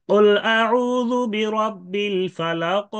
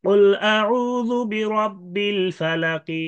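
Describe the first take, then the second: First: Slow, higher chant ending "ফালাক" without a vowel; sakin stop recitation. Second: Slow, higher chant ending "ফালাকি" with a light i; rum stop recitation. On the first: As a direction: chant it, closing "ফালাক" on a bouncing q. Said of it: "এটা সাকিন". (সাকিন করে ধীর তিলাওয়াত, শেষে "ফালাক") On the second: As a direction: recite slowly, sounding the final kasra in "ফালাকি". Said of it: "রুম করে যদি করতে চায়". (রুম করে ধীর তিলাওয়াত, "ফালাকি"-তে হালকা জের) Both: Shown as a demonstration.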